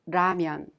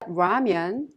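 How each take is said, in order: First: The first consonant falls between L and R. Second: The first consonant is a clear English-like sound. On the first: The speaker calls it right. "a sound in between the L sound and the R sound" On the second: The speaker calls it wrong. "it's not ramen"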